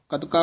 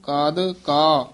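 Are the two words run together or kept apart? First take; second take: together; apart. First: The two words are run together. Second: The two words are kept apart, softly. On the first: The speaker calls it wrong. "ਇਕੱਠਾ ਨਹੀਂ ਕਹਿ ਦੇਣਾ" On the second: The speaker calls it right. "ਕਾਦ ਪੋਲਾ ਬੋਲਣਾ ਹੈ"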